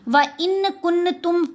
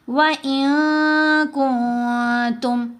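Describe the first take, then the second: First: The n sound is pronounced fully and clearly. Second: The n sound is hidden in the nose. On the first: The speaker calls it wrong. "नून जाहिर हो गया, नून कोई नहीं छुपा" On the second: The speaker calls it right. "यहाँ कैसे पढ़ना है"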